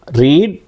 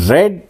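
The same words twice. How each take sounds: First: "రీడ్" with a long ee; present-tense pronunciation. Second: "రెడ్" with a short e, pitched higher; past-tense pronunciation. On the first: Teacher contrasts verb forms for learners, long-ee pronunciation "రీడ్". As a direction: stretch the vowel in "రీడ్" to ee. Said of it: "రీడ్ అని pronounce చేయాలి". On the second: Teacher contrasts verb forms for learners, short-e pronunciation "రెడ్". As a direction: say "రెడ్" like the colour red. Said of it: "రెడ్ అని pronounce చేయాలి". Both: Shown as a demonstration.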